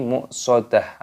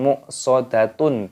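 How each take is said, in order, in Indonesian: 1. Kata ini berakhir dengan bunyi 'h' yang lembut. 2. Kata ini berakhir dengan bunyi 'tun' yang penuh. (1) "tapi muqsadah" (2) "bukan muqsadatun"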